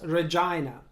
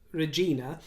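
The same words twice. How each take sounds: First: The second syllable sounds like 'jy', rhyming with vagina. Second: The second syllable sounds like 'jee', rhyming with Tina. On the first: This is the traditional English way to say it. "mispronounced as Regina. Sounds an awful lot like the lady part" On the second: This is the Latin and Italian way to say it. "the word Regina"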